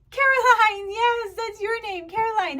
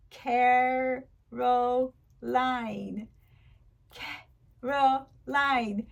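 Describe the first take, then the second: First: "Caroline" joined up, high and loud; delighted teacher praise. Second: "Caroline" in three slow, separate beats; syllable by syllable. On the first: Pretend. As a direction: sing out praise to a small child, "Caroline" whole. Teacher celebrating pupil's name. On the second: Shown as a demonstration. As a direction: clap out "Caroline" with gaps between syllables. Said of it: "Listen to this name".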